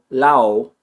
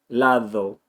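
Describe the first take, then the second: First: The d sound is dropped completely. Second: The d is a th sound with tongue contact. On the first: "I'm not just eliminating the D" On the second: "pronounce the D between any two vowels like a T H sound"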